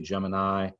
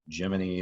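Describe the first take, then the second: First: The word has its common everyday English pronunciation. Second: The word is pronounced closer to the Greek form. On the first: This is how most people say it. "most people say Gemini" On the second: This is how insiders say it. "how you typically hear the, the uh, NASA folks say it"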